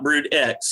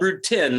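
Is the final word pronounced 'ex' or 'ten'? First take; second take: ex; ten. First: The last word is said as 'ex'. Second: The last word is said as 'ten'. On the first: The speaker calls it wrong. "not brood X. A lot of a lot of people in the media keep mispronouncing it" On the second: The speaker calls it right. "It's called brood ten"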